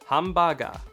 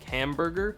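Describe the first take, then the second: First: The word is said with Japanese sounds. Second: The word is said with English sounds.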